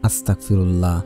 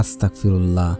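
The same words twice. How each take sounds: First: The word is pronounced carelessly, with sounds blurred. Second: The same.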